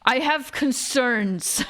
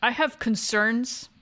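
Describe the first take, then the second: First: "I have concerns." very slow, falling at the end; emphatic statement. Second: "I have concerns?" drawn out with a rise at the end; questioning tune. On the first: Streamer reacting to Sophie's crush, "concerns" stretched and falling. Same words repeated, now emphatic. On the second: Streamer reacting to Sophie's crush, "concerns" slow and rising. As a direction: let "concerns" lift slowly like a question. Same words repeated with different tune. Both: Real, not acted.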